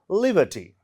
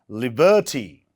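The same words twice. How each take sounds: First: The stress is on the first syllable. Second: The stress is on a later syllable. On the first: The speaker calls it right. "On the first syllabus, liberty. So we call this word liberty" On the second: The speaker calls it wrong. "not liberty"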